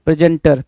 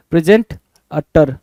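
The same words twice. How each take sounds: First: Said in the usual way. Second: प्रेजेंट, अटर broken into two chunks with a pause; प्रेजेंट, अटर split into two parts for spelling. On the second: Shown as a demonstration. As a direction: say प्रेजेंट, then अटर as separate pieces.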